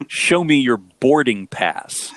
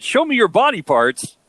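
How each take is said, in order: First: Each word drawn out so it cannot be misheard; slow, clear correction. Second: Put-on misheard thick-accent version, pitched higher; quicker, higher, with BOARDING PASS blurred into BODY PARTS by accent. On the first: Retold or imitated. Wife explaining what the guy said, slow and clear. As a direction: slowly enunciate BOARDING PASS. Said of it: "that's what the guy said to you at the gate". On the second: Husband quoting what he misheard, thick accent. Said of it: "He had such a thick accent, I thought he said".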